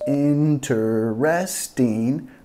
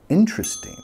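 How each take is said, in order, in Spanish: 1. Se pronuncian las cuatro sílabas, incluida la segunda. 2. La segunda sílaba se omite, quedan tres sílabas. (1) "no decimos"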